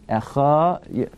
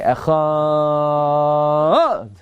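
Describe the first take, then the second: First: The word is said short with a level pitch. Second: The word is drawn out with a changing pitch. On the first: The speaker calls it right. "You don't change the tone" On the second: The speaker calls it wrong. "you shouldn't say Shema like that"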